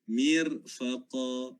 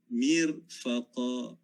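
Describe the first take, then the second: No difference in how they are said.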